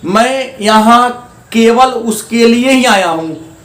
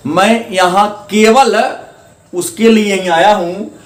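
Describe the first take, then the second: First: Said in the usual way. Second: Slow मैं यहां केवल with केवल pressed, then the rest evenly; stress on केवल. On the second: Shown as a demonstration. Teacher repeating the example to show students the stress on केवल. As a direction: lean on केवल, taking the opening words slowly. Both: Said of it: "यहां केवल जोड़ देने से शब्द पर बल बढ़ जा रहा".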